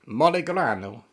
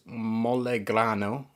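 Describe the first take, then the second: First: Put-on Italian accent with a lifted tune; best Italian accent. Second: Said in the usual way. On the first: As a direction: say MOLEGRANO like a playful mock Italian. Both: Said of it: "That's my best Italian accent".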